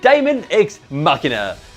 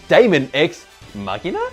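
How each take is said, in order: First: The voice falls at the end like a statement. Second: The voice rises at the end like a question.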